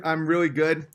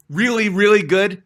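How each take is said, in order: First: Said in the usual way. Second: Louder, leaning on both reallys; hammed-up brag, punching Really, really; mock-arrogant self-praise; boastful emphasis. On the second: Shown as a demonstration. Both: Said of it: "So humble".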